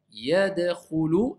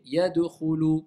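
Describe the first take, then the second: First: YADKHULU with a short, vowelless D; neutral consonant stop. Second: YADKHULU with an extra vowel after D, "yadukhulu"; added vowel error. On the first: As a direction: keep the D neutral in Yadkhulu, bouncing straight into KH. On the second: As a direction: slip a rounded vowel between D and KH in yadkhulu. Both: Shown as a demonstration. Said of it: "Vous voyez la différence".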